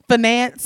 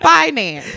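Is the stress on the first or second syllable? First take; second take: second; first. First: The stress is on the second syllable. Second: The stress is on the first syllable.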